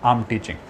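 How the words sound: The words are joined in one flow.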